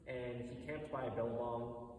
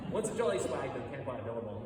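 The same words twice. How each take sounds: First: Said in the usual way. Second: A light Australian accent on "billabong". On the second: Shown as a demonstration. Telling viewers the song's opening in a mild Australian accent. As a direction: say it the Aussie way, lightly, for authenticity. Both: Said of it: "I should say this in my Australian accent".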